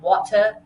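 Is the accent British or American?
British. It is said in a British accent.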